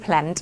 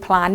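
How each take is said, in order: First: "plant" with an 'ae' as in American English. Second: "plant" with an 'ah' as in British English. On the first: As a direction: say "plant" with the American แอะ vowel. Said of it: "เขาจะเสียงแอะแอะนะ". (plant เสียงแอะ สำเนียงอเมริกัน) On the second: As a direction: say "plant" with the open British vowel. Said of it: "ถ้าเป็นอังกฤษเขาจะเป็นอะ". (plant เสียงอะ สำเนียงอังกฤษ) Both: Shown as a demonstration.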